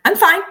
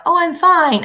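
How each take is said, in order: First: "I'm fine" jumped up high and loud, clipped short; pointed fine. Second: Airy, dismissive "Oh, I'm fine" swept up high; breezy fake fine. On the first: Teacher demoing the second fine, pointed and curt. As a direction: snap a short "I'm fine" that means the opposite. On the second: Teacher contrasting two ways of saying fine, dismissive. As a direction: brush it off with a bright, loud "Oh, I'm fine". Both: Shown as a demonstration. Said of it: "there's a world of difference".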